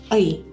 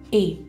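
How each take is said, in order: First: The vowel glides, like 'ui'. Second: The vowel is a plain 'e' sound. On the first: This is the dash's name on its own. "Namanya adalah Ei" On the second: This is how the dash is read within a number. "dia akan terbaca E"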